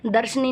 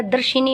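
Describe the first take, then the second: First: दर्शनी with no i after sh, darsh-ni; wrong form darshni. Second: दर्शिनी with a short i, dar-shi-ni; correct form darshini. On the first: Teacher showing students the wrong दर्शनी. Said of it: "दर्शनी नहीं होता है". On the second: Teacher giving students the correct दर्शिनी. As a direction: say दर्शिनी in full. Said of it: "दर्शिनी होता है". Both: Shown as a demonstration.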